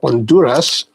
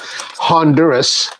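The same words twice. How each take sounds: First: The word has a Spanish pronunciation. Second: The word has an American English pronunciation.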